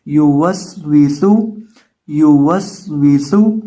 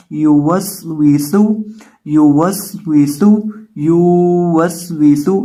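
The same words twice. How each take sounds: First: युवस्विसु with rounded lips on या and वाव, loud, slow and deliberate; correct short reading. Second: Slow, stretched, loud wrong reading of युवस्विसु with every letter dragged long; wrong drawn-out reading. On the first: Teacher to students, showing the correct reading, slow and loud. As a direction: read युवस्विसु slowly with no letter stretched. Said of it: "होंठों को गोल करेंगे". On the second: Quran teacher to students, showing the wrong long reading, slow and loud. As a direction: drag out युवस्विसु loudly to show the mistake. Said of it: "इस तरह नहीं पढ़ना आपने".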